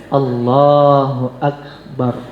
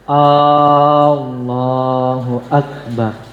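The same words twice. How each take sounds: First: No syllable is drawn out beyond normal length. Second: The first vowel is drawn out long. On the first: God is great. The speaker calls it right. "jangan A-nya dipanjangkan, jangan bar-nya dipanjangkan" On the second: It becomes a question asking whether God is great. The speaker calls it wrong. "dipanjangkannya A-nya"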